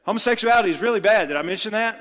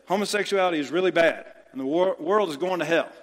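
First: Fast, louder and higher scolding preacher; a pastor stuck on one line, pushed up loud; exasperated mock preacher. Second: Fast, mildly louder scolding preacher; lightly voiced pastor repeating himself; mock preachy scold. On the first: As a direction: hammer the same point harder, sarcastically. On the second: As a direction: rattle it off like a tired sermon line. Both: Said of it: "And they say".

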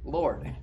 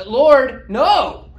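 First: Said in the usual way. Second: Much higher, loud outburst with a laugh; instinctive refusal. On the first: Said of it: "this great irony in that short statement". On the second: Retold or imitated. Peter blurting a refusal at his Lord, loud and high. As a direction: blurt it out like a startled man refusing.

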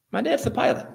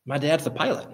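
First: Much higher, proud and eager; a child at sea, proud his dad flies the plane; boyish excited repeat. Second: Said in the usual way. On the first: Retold or imitated. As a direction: beam it out like a proud little boy. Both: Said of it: "he said".

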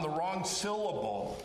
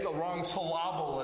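First: Said in the usual way. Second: "syllable" stressed on the middle, suh-LAH-bul; misplaced stress. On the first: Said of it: "say the wrong syllable". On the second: Shown as a demonstration. Preacher jokes about wrong emphasis, "syllable" stressed as suh-LAH-bul. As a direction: put the beat on the second part of "syllable". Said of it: "as it's said".

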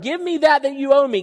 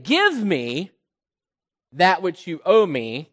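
First: Loud, high, entitled demand; the son loudly claiming what's owed; arrogant demand. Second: Said in the usual way. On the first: Acted. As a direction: demand it as if it's owed you. Prodigal son demanding from father.

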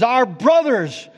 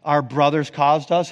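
First: "Our brothers" higher, louder, slow; "Our brothers" with "our" pushed up and hard; loud part. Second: Said in the usual way. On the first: Shown as a demonstration. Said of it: "the loud part is". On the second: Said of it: "exact parallel to their".

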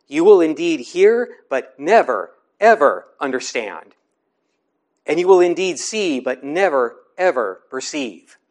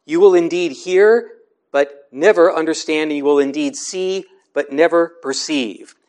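First: "never, ever" stressed hard, with a pause after "never"; emphatic never, ever. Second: Said in the usual way. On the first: Shown as a demonstration. Preacher showing the congregation the Greek emphatic negative on "never, ever". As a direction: lean on "never" and "ever" in turn. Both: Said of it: "the emphatic negative can be expressed like this".

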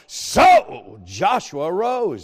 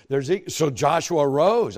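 First: Slow and loud on arose; emphatic repeat. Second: Said in the usual way. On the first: Acted. Preacher savoring the word arose, slow and loud. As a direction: lean hard into arose, stretched and loud. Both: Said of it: "I love that word".

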